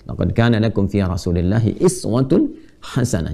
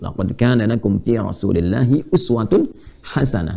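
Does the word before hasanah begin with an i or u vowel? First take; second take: i; u. First: The word before hasanah begins with an i vowel. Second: The word before hasanah begins with a u vowel. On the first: "Bisa dibaca juga dengan iswah" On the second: "disebut uswah"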